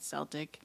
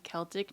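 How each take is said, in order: First: The word begins with a soft S sound. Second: The word begins with a hard K sound. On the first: This is not the traditional way of saying the word. The speaker calls it wrong. "not Celtic" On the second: This is the traditional way of saying the word. The speaker calls it right. "which is why I say Celtic"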